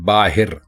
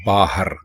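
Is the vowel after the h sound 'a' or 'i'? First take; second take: i; a. First: The vowel after the h is 'i'. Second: The vowel after the h is 'a'. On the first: The speaker calls it wrong. "जो कि बिल्कुल गलत है" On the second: The speaker calls it right. "असल लफ्ज़ है बाहर"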